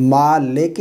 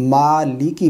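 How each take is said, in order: First: مالک slowly as "maa-leke", with e; wrong vowels. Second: مالکی as "maaliki", with i sounds; correct vowels. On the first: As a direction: say "maleke" for مالک. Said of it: "نہیں". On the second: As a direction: say a clear "li-ki" in مالکی. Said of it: "پڑھیں گے". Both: Shown as a demonstration.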